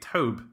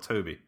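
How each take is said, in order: First: The name is said as one syllable. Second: The name is said as two syllables. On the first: "Are you pronouncing it Tobe Hooper" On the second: "or Toby?"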